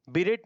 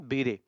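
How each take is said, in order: First: बीरेट with the final t sounded; wrong pronunciation. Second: बीरे with a silent t, "bi-ray"; correct pronunciation. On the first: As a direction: say बीरेट with a clear t at the end, as the error. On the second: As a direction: end बीरे on the vowel, no t. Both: Shown as a demonstration. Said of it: "बीरेट नहीं".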